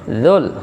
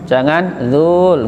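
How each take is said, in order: First: The vowel is kept short. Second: The vowel is drawn out long. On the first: The speaker calls it right. "Ya, pendek" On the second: The speaker calls it wrong. "jangan zul, nggak boleh"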